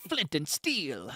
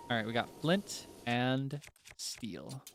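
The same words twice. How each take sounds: First: Slow, drawn-out item announcement; item fanfare voice. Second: Said in the usual way. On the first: Pretend. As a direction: announce it like a game item reveal. Item pickup announcement in game.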